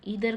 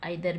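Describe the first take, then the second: First: The first vowel sounds like 'ee'. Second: The first vowel sounds like 'eye'. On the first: "ईदर को" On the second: "आप आइदर भी बोल सकते हैं"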